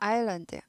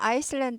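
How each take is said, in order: First: The s is silent in the middle. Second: An s sound is pronounced in the middle. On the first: The speaker calls it right. "S가 발음이 아예 안 나는 묵음입니다" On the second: The speaker calls it wrong. "S가 묵음이에요. 아이슬란드 하지 않고"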